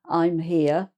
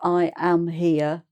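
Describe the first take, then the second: First: I am is contracted to one syllable. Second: I am is said as two full words. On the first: "it's quicker and easier to say I'm" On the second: "instead of I am here"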